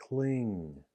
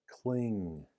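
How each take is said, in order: No difference in how they are said.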